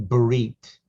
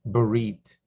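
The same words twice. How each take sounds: The two takes are said the same way.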